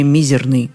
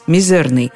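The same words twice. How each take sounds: First: The stress is on the first syllable. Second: The stress is on the second syllable. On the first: "допускает и другое ударение" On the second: "рекомендует нам говорить"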